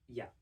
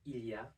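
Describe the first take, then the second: First: The L is dropped and vowels blend. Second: The L is pronounced in full. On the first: "we don't pronounce the L and we blend both of the E sounds together" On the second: "instead of il y a"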